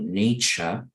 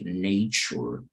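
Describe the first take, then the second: First: It is said with a British accent. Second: It is said with an American accent. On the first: "en británico esto se conoce como nature" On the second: "In American you say nature"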